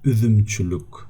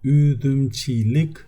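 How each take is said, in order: First: The later vowels are rounded, with lips rounded. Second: The later vowels are unrounded, with lips spread. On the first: The speaker calls it right. "üdümçülük is like it's more it goes more smooth" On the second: The speaker calls it wrong. "We do not say üdümçilik. It's even difficult for us to pronounce like this"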